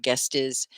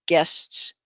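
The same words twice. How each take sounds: First: GUEST IS as a wrong "guest-iz"; extra syllable. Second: GUESTS in one beat, full "sts"; one syllable. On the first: Teacher warns against the common mistake, extra syllable. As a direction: add a second beat, GUEST IS. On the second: Teacher recalls the example word, one syllable. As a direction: finish GUESTS on the hissed cluster. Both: Shown as a demonstration. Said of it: "guests is not guest is".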